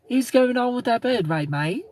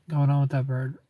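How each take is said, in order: First: Higher-pitched Australian accent. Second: Said in the usual way. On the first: Shown as a demonstration. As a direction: put on an Aussie accent, voice pitched up. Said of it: "See, that's Australian".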